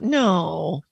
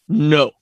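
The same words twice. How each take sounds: First: It is said in a higher, softer voice. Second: It is said short, sharp and deep.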